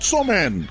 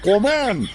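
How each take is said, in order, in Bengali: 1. শব্দটি 'ch' ধ্বনি দিয়ে শুরু হয়। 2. শব্দটি 'k' ধ্বনি দিয়ে শুরু হয়। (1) "নট চমেন" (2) "উচ্চাৰণটো কমেন্টহে হয় পায়।"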